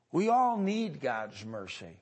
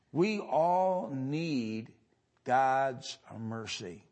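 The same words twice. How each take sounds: First: Said in the usual way. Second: Very slow, each word weighed; slow, solemn stress on all; slow emphasis. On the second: Real, not acted. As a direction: let it sink in slowly. Preacher repeats line for emphasis.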